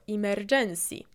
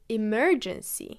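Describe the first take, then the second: First: The stress falls where a Polish speaker places it. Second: The stress falls where native English speakers place it. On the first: The speaker calls it wrong. "Polish people say it as emergency" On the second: The speaker calls it right. "you should really say emergency"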